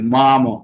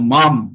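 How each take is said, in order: First: The final m is followed by a short o vowel. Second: The final m is a bare consonant, no vowel. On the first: "যখন বলবো তখন পুরো ম, মানে যেন ময়ের সঙ্গে একটা ওকার যোগ আছে" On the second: "সেখানে কিন্তু আমার আর কোনো যুক্ত নেই, ব্যঞ্জন বর্ণ একদম পুরো আধখানা ম আছে"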